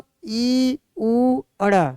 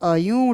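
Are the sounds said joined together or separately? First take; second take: separately; joined. First: Each sound is said separately with pauses. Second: The sounds are blended into one word. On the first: "अलग अलग भी पढ़ करके" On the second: "मिला करके पढ़ेंगे"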